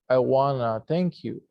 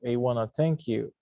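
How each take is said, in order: First: 'Want to' is reduced to 'wanna'. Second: The same.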